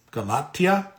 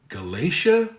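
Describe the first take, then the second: First: Galatia said ga-LAH-tee-ah; retry Galatia as ka-LAH-tee-uh with a rising tone; second try at the name. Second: Galatia said ga-LAY-sha; first try at the name. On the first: Correcting a viewer's town name, saying ka-LAH-tee-uh. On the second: Reading a viewer's town name aloud, first guess ka-LAY-shuh. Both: Shown as a demonstration.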